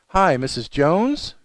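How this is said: The voice rises at the end. The caller sounds afraid and unsure. The speaker calls it wrong. "don't try to end every sentence with an up inflection in your voice, like"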